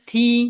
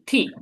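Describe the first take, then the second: First: It is said with a flat, level pitch. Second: It is said in the fourth tone. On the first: "এটা এটা ফ্ল্যাট ভাবে" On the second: "fourth টান"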